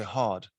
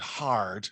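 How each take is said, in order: First: "hard" as "hahd", the R dropped; posher HARD without R. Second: "hard" with a clearly sounded West Country R; R pronounced in HARD. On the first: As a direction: say "hard" with a long ah and barely any r. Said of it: "if you're posher, you'd say hard". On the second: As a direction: say "hard" slowly, sounding the r before the d. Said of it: "I pronounced the R". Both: Shown as a demonstration.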